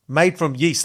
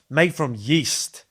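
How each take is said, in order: First: Said in the usual way. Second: Slowed right down, ending on a rise; slow explaining. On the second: Shown as a demonstration. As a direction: spell out "made from yeast" slowly, each word drawn out with a rising end.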